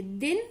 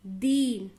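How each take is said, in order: First: "दिन" with a brief i; short vowel. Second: "दीन" with a stretched ee; long vowel. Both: Shown as a demonstration. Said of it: "दोनों का उच्चारण में difference देखिए".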